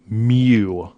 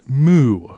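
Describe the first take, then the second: First: The word does not sound like a cow's moo. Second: The word sounds like a cow's moo. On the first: The speaker calls it right. "It's mu, M U" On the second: The speaker calls it wrong. "do not say moo, like a cow. It's not moo"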